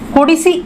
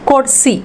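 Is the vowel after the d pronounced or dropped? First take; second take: pronounced; dropped. First: The i vowel after d is pronounced fully. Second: The i vowel after d is dropped.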